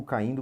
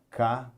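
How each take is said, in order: First: Said in the usual way. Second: "Ca-in-do" with long pauses between the three syllables. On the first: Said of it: "Vamos ver aqui". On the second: Shown as a demonstration. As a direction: spell out "Ca-in-do" slowly, each syllable alone. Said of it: "Vamos lá". ("Ca-in-do" separando bem as sílabas)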